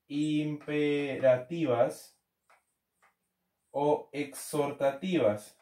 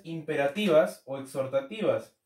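First: Very slow, drawn-out syllables; slow dictation. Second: Said in the usual way. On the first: Real, not acted. Teacher repeating the term for students to write, slow dictation. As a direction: spell it out syllable by syllable, slowly.

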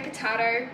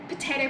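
First: Potato with an AH middle, po-TAH-to; potahto version. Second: Potato with an AY middle, po-TAY-to; potayto version. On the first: Vlogger shrugging off a swap, potato as po-TAH-to. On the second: Vlogger shrugging off a swap, potato as po-TAY-to. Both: Shown as a demonstration. Playful either-or of two pronunciations.

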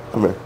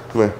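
The two takes are said the same way.

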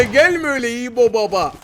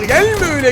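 First: Said in the usual way. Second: High, loud warning cry; sudden shout. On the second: Real, not acted. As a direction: snap it at the rushing enemy. Shouting at charging enemy. (üstüne gelen rakibe ani bağırış)

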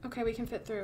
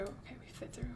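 First: Said in the usual way. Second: Hushed, unvoiced whisper. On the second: Real, not acted. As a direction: whisper it so no one hears. Repeats line, second whispered.

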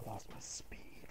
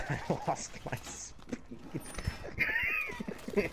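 First: Breathless whisper after laughing. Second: Laughing. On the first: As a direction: wheeze it out, nearly no voice. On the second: Laughing fit mid-game. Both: Real, not acted.

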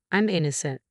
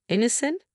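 First: Said in the usual way. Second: "Innocent?" as a high, rising question; questioning echo. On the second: A narrator's reading. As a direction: throw "Innocent?" back with pitch climbing sharply. Narrator echoes the claim in disbelief.

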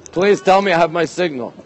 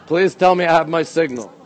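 No difference in how they are said.

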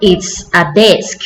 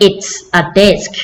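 First: "It's a desk" said slowly and clearly; slow and clear for copying; teacher slowly models the answer. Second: "It's a desk" slow again, even and clear; teacher slowly models the answer; slow model repeat. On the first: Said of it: "เขาตอบว่า". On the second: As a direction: echo it slowly for kids. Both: Shown as a demonstration.

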